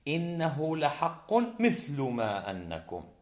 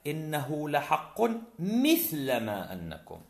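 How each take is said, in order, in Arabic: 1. تنتهي mithl بحركة متغيرة ليست فتحة. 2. تنتهي mithl بفتحة ثابتة. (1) "جاز لك أن تعربها" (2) "وجاز لك أن تبنيها على الفتح"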